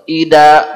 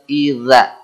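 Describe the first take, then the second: First: The middle consonant is a d sound. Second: The middle consonant is a th-like sound. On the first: The speaker calls it wrong. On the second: The speaker calls it right.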